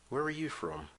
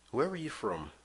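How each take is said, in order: Both takes have the same delivery.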